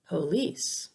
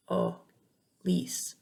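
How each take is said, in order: First: Said in the usual way. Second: Police split into a weak puh, pause, then lice; broken-down schwa. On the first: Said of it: "is never stressed". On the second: Shown as a demonstration. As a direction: sound out police in two separate pieces. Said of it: "It makes the uh sound".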